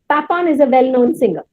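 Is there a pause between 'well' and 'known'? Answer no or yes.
no. Well known is said together without a pause. The speaker calls it right. "how do I pronounce it?"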